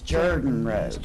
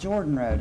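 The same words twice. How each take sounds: First: The first syllable sounds like 'jer'. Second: The first syllable sounds like 'jor'. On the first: The speaker calls it right. "it is Jordan Road" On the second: The speaker calls it wrong. "It is not Jordan Road"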